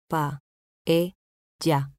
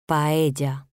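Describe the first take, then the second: First: "Paella" split as Pa, e, lla; syllable by syllable. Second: Said in the usual way. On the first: Shown as a demonstration. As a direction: say "Paella" with a pause after each syllable. ("Paella" separado en sílabas: pa, e, lla) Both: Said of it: "Separación de sílabas".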